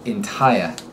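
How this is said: The final R is dropped completely. "they drop them like a hot rock"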